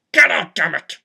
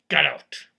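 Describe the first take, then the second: First: Louder, barked order to leave; retold angry yell. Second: Said in the usual way. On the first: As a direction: throw him out with a yell. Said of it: "I was like". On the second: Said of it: "I just said".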